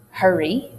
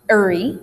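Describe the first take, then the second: First: Careful HURRY, H intact; formal dialect. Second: Louder "'urry", no H; informal dialect. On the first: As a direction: HURRY with the H pronounced. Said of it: "if you're formal". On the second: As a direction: HURRY with the H dropped. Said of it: "if you're informal". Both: Shown as a demonstration.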